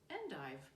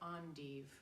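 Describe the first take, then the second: First: The word is said with an American pronunciation. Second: The word is said with a French-style pronunciation.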